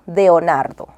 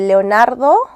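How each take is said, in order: First: The name begins with a D sound. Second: The name begins with an L sound. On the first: The speaker calls it wrong. "digo Deonardo, con la D" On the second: The speaker calls it right. "en lugar de Leonardo"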